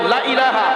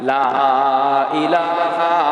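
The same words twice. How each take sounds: First: The vowel of 'la' is kept short. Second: The vowel of 'la' is drawn out long. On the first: There certainly is a god besides Allah. The speaker calls it wrong. "টান ছাড়া যদি কেউ বলে" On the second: There is no god. The speaker calls it right. "এখানে লার মধ্যে টান আছে।"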